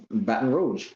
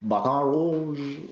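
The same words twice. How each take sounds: First: Said in the usual way. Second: Slow, drawn-out French accent, higher; exaggerated French pronunciation. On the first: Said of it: "That's French". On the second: Shown as a demonstration. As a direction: have a go at French, stretching it out. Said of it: "how to do the French accent".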